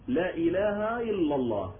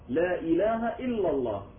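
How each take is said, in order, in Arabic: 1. تتحول الهمزات إلى صوت ياء. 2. كل همزة تُنطق بوضوح. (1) "وهذا غلط" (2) "لازم كل الهمزات محققة"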